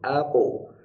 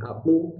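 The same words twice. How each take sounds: First: The final echo has an 'o' quality. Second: The final echo has an 'u' quality. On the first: The speaker calls it right. "tapi o" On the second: The speaker calls it wrong. "jangan u"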